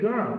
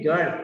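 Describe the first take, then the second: First: Put-on "girl" with a sounded, curled r; "girl" with its R pronounced; rolled R. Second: Put-on "girl" said with the r dropped; "girl" without an r sound; unrolled R. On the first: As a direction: say "girl" with the tongue going up for r. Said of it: "You can read girl". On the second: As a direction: say "girl" as "gul", tongue flat. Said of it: "people read girl". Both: Shown as a demonstration.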